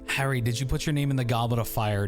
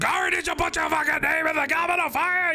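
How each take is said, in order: First: The question is asked calmly. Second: The question is asked angrily.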